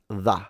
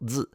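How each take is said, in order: First: It begins with a th sound between the teeth. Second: It begins with a buzzing z sound. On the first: "becomes the" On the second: "So z becomes"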